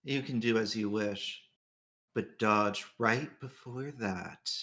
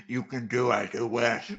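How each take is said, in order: First: Low, soft game-character voice; Archer voice. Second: Low character voice, mouth full of cookie; lightly voiced low, aloof game character; Gilgamesh voice. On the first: Acted. Player redoing the line as the right character, low soft voice. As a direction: drop low and quiet, slowing to the end. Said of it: "Jay can tell this is Archer talking". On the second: Player voicing the wrong character through a cookie, low put-on voice. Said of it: "my Gilgamesh voice was distinct enough from my Archer voice".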